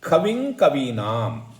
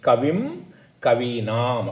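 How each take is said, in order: First: The words are joined, ending the first in 'ng'. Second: The words are separated, ending the first in 'm'. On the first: The words are linked together. "இதை வந்து நம்ம ஒரே சேர்ந்து சொல்லணும்" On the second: The words are said apart. "தனித்தனியாக சொன்னால்"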